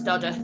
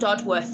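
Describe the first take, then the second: First: It is said in a local reduced form. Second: Every sound is said as it is spelled. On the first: "That's how they pronounce it locally" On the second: "it's spelt Dodworth"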